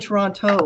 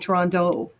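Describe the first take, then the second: First: The middle consonant is a clear t. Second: The middle consonant sounds like a d. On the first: "we don't say Toronto" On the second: "the T's are D's"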